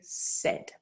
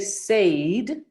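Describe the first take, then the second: First: The vowel is short, like in 'bed'. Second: The vowel sounds like the one in 'paid'. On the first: The speaker calls it right. "you'd say said" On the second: The speaker calls it wrong. "You wouldn't say said"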